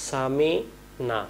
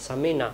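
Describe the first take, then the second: First: সামি'না with the ain caught in the throat; correct ain. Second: সামি'না quick and short, dropping the ain; wrong, ain dropped. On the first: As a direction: say সামি'না clearly, slowly. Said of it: "আমরা বলি". (আইন আদায় করে সামি'না) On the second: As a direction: say সামি'না carelessly. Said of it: "আর যদি আমি বলি". (ভুল করে সামি'না) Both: Shown as a demonstration.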